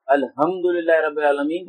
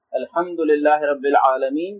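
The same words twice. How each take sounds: First: "الحمدللہ" with a plain ہ instead of ح; wrong h from chest. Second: "الحمدللہ" with the ح drawn from the throat; slow recitation, throaty ح in "الحمدللہ"; correct ح from throat. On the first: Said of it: "دو چشمی ہے والی آواز نکال دی سینے سے". ("الحمدللہ" میں ح کے بجائے سینے والی ہ) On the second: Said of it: "ہا کی آواز حلق سے نکالنی ہے". ("الحمدللہ" کی ح حلق سے) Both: Shown as a demonstration.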